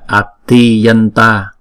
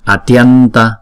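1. Nghe thấy một nguyên âm đầy đủ giữa t và y. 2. Âm t và y được nối liền nhanh chóng. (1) "Cũng giống như là atiyanta" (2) "chúng ta đọc nhanh thì là atyanta"

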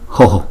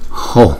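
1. Nguyên âm lặp sau h được phát đầy đủ, có rung thanh. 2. Nguyên âm lặp sau h nhẹ và bị ngắt gọn. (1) "đáng lý chữ này chúng ta đọc là Ho Ho" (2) "chữ O ngoài sau nhưng mà chúng ta lại đọc nhỏ đi một chút"

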